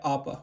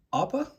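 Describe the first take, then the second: First: Said in the usual way. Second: Tentative rising guess at the name; unsure question. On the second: Real, not acted. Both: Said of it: "Yeah, Appa".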